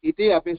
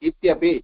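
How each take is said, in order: First: The two words are said as separate words. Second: The two words are merged into one form. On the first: "இத்தி அப்படி சொன்னாலும் தப்பு கிடையாது" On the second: "இத்தியப்பி சொன்னாலும் தப்பு கிடையாது"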